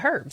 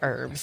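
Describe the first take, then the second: First: English accent, with the h pronounced. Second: American accent, with a silent h.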